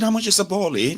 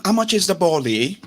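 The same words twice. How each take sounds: First: Put-on British accent again higher; fake London accent. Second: Put-on British accent; fake London accent. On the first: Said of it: "I said". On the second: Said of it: "begin to sound like". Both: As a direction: ask it with a borrowed London accent.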